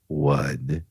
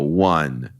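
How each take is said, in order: First: It is said softly and quietly. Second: It is said at normal loudness.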